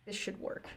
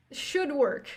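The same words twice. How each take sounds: First: Very soft, almost voiceless mutter; muttered self-reassurance. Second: "should" lifted higher in pitch; stress on should. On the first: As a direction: mumble it under your breath to yourself. Character mutters reassurance to himself. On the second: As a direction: say it aloud, pushing "should" up. Repeats it more firmly. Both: Acted.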